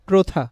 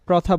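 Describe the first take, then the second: First: The first vowel is a closed 'o' sound. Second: The first vowel is an open 'aw' sound. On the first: The speaker calls it right. "অটা ও এর মতো উচ্চারণ হচ্ছে" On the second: The speaker calls it wrong. "আমরা প্রথা বলবো না"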